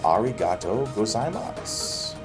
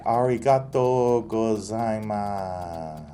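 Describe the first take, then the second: First: It is said short and flat, Kanto accent. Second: It is said melodically, in a Kansai accent.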